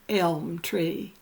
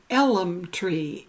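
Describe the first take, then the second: First: Elm is said as one syllable. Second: Elm is said as two syllables. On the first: "instead of elm tree" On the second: "his daddy always said elm tree"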